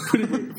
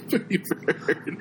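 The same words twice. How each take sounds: First: High squeaky parrot squawk. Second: Slow breathy parrot squawk through laughs. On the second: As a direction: drag it out like a parrot. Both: Retold or imitated.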